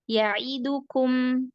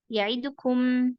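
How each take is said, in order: First: Each vowel is given its full length. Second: A vowel is cut shorter than its length. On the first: The speaker calls it right. "harusnya dibaca ya'idukum" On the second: The speaker calls it wrong. "Tapi dibaca ya'idukum"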